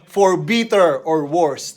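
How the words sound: It is said in a New Zealand accent.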